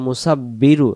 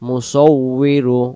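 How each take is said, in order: First: The middle consonant is a doubled b sound. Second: The middle consonant is a w sound. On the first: The speaker calls it wrong. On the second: The speaker calls it right.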